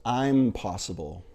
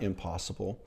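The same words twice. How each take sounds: First: I'm stressed, split off from possible. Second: Said in the usual way. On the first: Shown as a demonstration. Preacher splitting the word for his congregation, stressed I'm. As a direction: land on I'm, then possible. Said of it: "stick a apostrophe and a space". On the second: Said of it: "take that little M in front of impossible".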